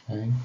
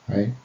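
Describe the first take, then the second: Both takes have the same delivery.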